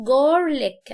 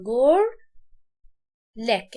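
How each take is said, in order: First: Said in the usual way. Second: جار, long pause, then لك; split in two. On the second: Shown as a demonstration. Teacher halving the word for learners, جار and لك apart. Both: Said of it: "اقسمها نصين".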